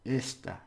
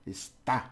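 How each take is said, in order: First: "Esta" with a firm "Es", falling away; stress on first syllable. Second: "Está" with a stabbed "tá"; stress on final syllable. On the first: Teacher showing the word for this, stress on first syllable. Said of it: "on the first syllable". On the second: Teacher showing it is, stress on final syllable. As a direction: stab the last syllable of "Está". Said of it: "like a little stabbing at the end". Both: Shown as a demonstration.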